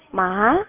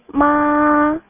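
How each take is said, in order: First: The pitch rises through the syllable. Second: The pitch stays level throughout the syllable. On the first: "이성은 누구 갑자기 불렀을 때, 네? 이런 느낌으로 발음해 주세요" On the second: "1성은 평평하게 발음이에요"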